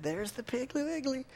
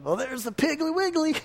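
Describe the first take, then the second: First: Soft, deadpan try at saying Piggly Wiggly straight; straight-faced try. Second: High, playful sing-song announcement. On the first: Pastor trying to say Piggly Wiggly without smiling, quiet and deadpan. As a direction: say Piggly Wiggly straight-faced, softly, holding back a grin. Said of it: "say that without smiling or laughing". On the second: Pastor mimicking the family's joke while driving past the store, high sing-song lilt. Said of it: "we always look over and go". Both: Retold or imitated.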